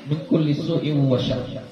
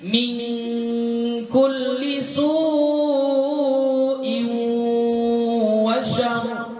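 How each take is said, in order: First: The vowel in su is short, no nasal blending. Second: The vowel in su is long, sounds blended nasally.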